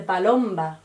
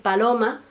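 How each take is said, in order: First: Palomba with the M B cluster kept, slow; dialect palomba. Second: Said in the usual way. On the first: Shown as a demonstration. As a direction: say palomba, sounding the B after the M. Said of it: "se dice palomba". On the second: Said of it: "en vez de decir paloma".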